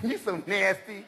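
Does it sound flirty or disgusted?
flirty. It sounds playful and flirty.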